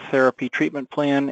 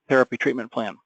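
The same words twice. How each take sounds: First: It runs on with no pause around it. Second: It is set apart by pauses on both sides. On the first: The words are treated as ordinary dictated text. "spoken in the course of a sentence with no pauses on either side" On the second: The words call up a saved template. "with any significant pause"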